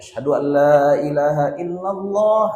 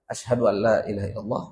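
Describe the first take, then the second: First: It is said loudly, in a full voice. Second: It is said quietly, in a low voice. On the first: "baru dibaca kali" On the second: "dibaca dulu secara sir"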